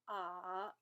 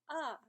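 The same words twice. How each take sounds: First: It is said with the third tone. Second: It is said with the fourth tone. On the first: "third tone" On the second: "and fourth tone"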